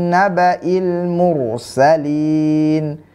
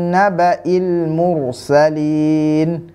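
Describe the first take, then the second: Both takes have the same delivery.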